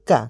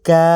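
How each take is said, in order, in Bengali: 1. স্বরটি হ্রস্ব, আর দ্রুত উচ্চারিত। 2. স্বরটি টানা ও দীর্ঘ। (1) "কাফ জবর কা" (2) "কাফ খাড়া জবর কা"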